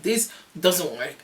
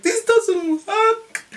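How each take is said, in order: First: Said in the usual way. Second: Very high, loud, stretched-out shriek; comic high wail, words dragged out; mock frustrated scream. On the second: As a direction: re-enact screaming that it's useless. Repeated outburst over gas and air.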